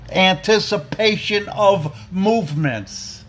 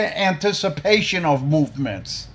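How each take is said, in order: First: Each word of "Anticipation of movements" spaced out and pressed; slow emphatic repeat. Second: Said in the usual way. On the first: Shown as a demonstration. Drilling the mayor on the plan, "Anticipation of movements" slow and emphatic. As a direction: spell out "Anticipation of movements" slowly so it sinks in. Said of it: "Did you hear what I said?".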